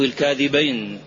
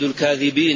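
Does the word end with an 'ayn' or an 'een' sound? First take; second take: ayn; een. First: The word ends with an 'ayn' sound. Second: The word ends with an 'een' sound. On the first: It refers to two liars. "والتثنية" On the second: It refers to many liars. "على الجمع"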